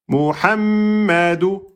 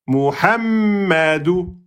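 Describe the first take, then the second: Both takes have the same delivery.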